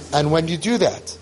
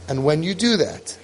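No difference in how they are said.

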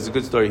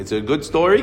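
First: "It's a good story." in a level, settled tune; confirming statement. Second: "It's a good story?" with pitch lifted, rising at the end; questioning. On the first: Rabbi assuring the owner, "It's a good story." as a plain statement. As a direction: answer "It's a good story." without any questioning lift. Answer to the question. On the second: Owner checking with the rabbi, "It's a good story?" as a rising question. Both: Retold or imitated.

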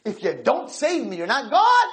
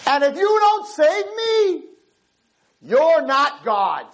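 First: Lighter retold dare to God; mild challenge. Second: Slow, high, drawn-out ultimatum; defiant challenge to God. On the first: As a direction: recap the ultimatum, less forced. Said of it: "I challenge you". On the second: Retold or imitated. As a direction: dare God to act, word by word. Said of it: "he looked up and he said".

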